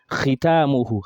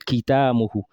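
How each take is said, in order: First: The first sound is a rough throat fricative. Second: The first sound is a hard stop like k. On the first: The speaker calls it right. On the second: The speaker calls it wrong.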